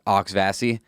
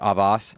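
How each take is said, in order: First: The name is said the way residents say it. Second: The name is said in a French-like way. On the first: This is how the people who live there say it. "they call it Oxvassy" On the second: This is how the French-based spelling suggests it sounds. "instead of like Avos"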